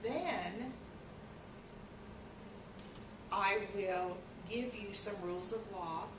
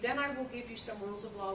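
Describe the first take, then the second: First: It is read slowly, with a pause after then. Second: It is read quickly, with no pause after then. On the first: "that was at a much slower speed" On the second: "If we were reading that at a higher speed"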